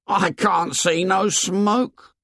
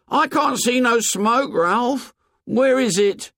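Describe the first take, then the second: First: Incredulous. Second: High, insistent disbelief; incredulous Piggy. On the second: Piggy pressing Ralph about the missing smoke, high and incredulous. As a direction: press Ralph, unable to believe it. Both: A narrator's reading. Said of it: "said Piggy incredulously".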